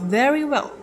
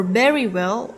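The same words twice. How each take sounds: First: Said in the usual way. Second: "very well" with a b-like opening on "very"; mispronounced "very", first sound like b; Russian-accented first consonant. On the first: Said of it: "instead of very well". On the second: Shown as a demonstration. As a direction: say "very" with its v swapped, close to berry. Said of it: "they might say".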